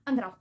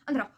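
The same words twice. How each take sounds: The two takes are said the same way.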